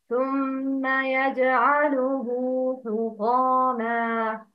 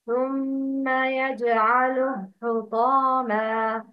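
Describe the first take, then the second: First: The pronoun ending after 'yaj'alu' is held two beats. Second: The pronoun ending after 'yaj'alu' is short or dropped. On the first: The speaker calls it right. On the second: The speaker calls it wrong.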